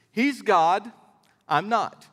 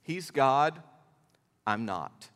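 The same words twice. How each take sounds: First: Said in the usual way. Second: "He's God" plain, "I'm not" dropped much lower and softer; quiet, weighty pause between the halves; soft emphatic statement. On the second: Shown as a demonstration. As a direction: let "I'm not" sink to a hush. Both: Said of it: "I'm gonna give it to you super simple".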